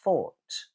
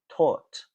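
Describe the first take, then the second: First: It starts with an f sound. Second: It starts with a t sound. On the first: "you can replace it with a f" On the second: "or a t, a t sound"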